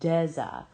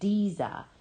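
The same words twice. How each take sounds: First: The first syllable sounds like 'dez' in desert. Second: The first syllable does not sound like 'dez'. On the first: The speaker calls it right. "just like the first syllable of a desert" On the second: The speaker calls it wrong. "They say Deza"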